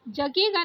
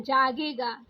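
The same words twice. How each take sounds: First: जगेगा with a short first a; wrong short first vowel. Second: जागेगा with a long jaa; correct long first vowel. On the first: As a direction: say जगेगा as "juh-ge-gaa". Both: Shown as a demonstration. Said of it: "जगेगा नहीं होता है".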